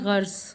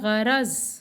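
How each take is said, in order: First: It is said with one syllable, gharz. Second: It is said with two syllables, gha-raz. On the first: The speaker calls it wrong. "हम इसको गलत बोलते हैं और हम कहते हैं गर्ज" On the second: The speaker calls it right. "सही अदायगी है गरज"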